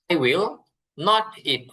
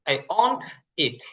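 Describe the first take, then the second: First: The words will not are said in full. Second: The words will not are contracted to won't. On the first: "আমি খাবো না" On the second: "এটাকে ইংরেজিতে সংক্ষেপ করে অন্ট লেখা হয়"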